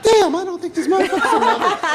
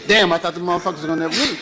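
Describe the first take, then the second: First: It is said in a high, soft voice. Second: It is said in a deep, casual voice.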